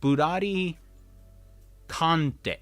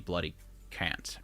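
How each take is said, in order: First: The name is said with Japanese sounds. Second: The name is said with English sounds.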